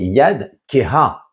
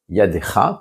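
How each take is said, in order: First: The word ends in the sounds 'keha'. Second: The word ends in the sound 'cha'. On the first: The weak hand. "puisque on écrit ce he, eh bien on doit le prononcer" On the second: Your hand. "Ne lis pas donc yadecha"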